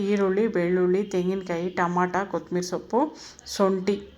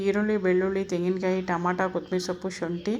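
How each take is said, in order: First: The list is said at a normal pace. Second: The list is said at a fast pace.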